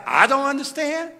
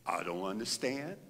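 First: A touch higher, set apart from his own voice; understated voice of God answering. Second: A low, soft voice outside his own; soft mysterious voice of God; low hushed voice of God. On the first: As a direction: lightly voice God speaking back. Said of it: "And God said". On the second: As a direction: hush it, a voice from nowhere. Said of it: "a voice outside of my voice". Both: Retold or imitated.

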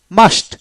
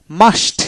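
Both takes have the same delivery.

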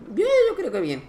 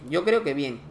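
First: Much higher, playful echo of himself; mock high voice repeating his verdict; high-pitched repeat. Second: Said in the usual way. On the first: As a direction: squeak it out in a high voice.

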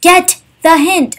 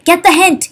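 First: Exasperated slow repeat; slower emphatic repeat. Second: Annoyed. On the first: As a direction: get the hint, slower and stressed. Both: Real, not acted. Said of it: "that little mini rant".

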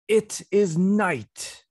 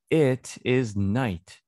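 First: Story reading voice. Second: Said in the usual way. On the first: Shown as a demonstration. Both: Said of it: "One more time".

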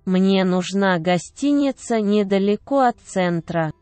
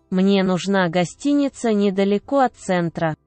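No difference in how they are said.

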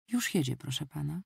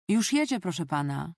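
First: Said in the usual way. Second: Raised-voice announcement, easing off at the end; a brief narrated shout that quickly drops; called out. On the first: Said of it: "powiedział głos w słuchawce". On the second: A narrator's reading. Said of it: "krzyknęła".

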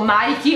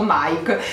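First: Nike said "naiki"; two-syllable Nike ending in ee; Nike with final ee. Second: Nike said "naik"; Nike in one syllable. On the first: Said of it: "avete mai pronunciato". (Nike detto "naiki") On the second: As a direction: silent final e in Nike. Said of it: "l'avete sempre pronunciato". (Nike detto "naik") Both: Shown as a demonstration.

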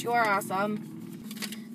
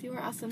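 First: Slow, sincere compliment to the sender; mean it, say it slowly to her; slow heartfelt thanks. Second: Said in the usual way. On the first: Real, not acted. Telling the viewer directly.

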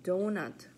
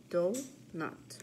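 First: Said in the usual way. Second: Donut split into do-nut with a gap; syllable by syllable. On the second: Shown as a demonstration. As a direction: count out two beats in Donut. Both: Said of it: "practice our counting syllables".

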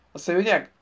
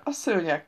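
First: "szőnyeg" said as a doubting question; questioning echo. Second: "szőnyeg" stated with a falling, final tune; matter-of-fact confirmation. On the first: Mabel querying Grant about the carpet, questioning "szőnyeg". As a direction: echo "szőnyeg" back, asking for confirmation. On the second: Grant confirming it to Mabel, stating "szőnyeg" plainly. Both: A narrator's reading.

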